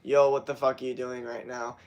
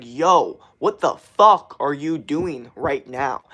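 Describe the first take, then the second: First: Said in the usual way. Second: Loud, slow, punched-out confrontation; talking at viewers. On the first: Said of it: "Not like". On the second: Shown as a demonstration. Streamer demonstrating talking at his audience, forceful. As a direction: hit each word right at the listener. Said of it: "at you guys".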